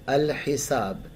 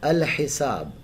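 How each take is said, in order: No difference in how they are said.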